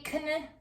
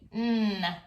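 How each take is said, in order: First: A K sound is heard before the N. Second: Only an N sound is heard. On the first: The speaker calls it wrong. "we don't say kn" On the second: The speaker calls it right. "We just say n"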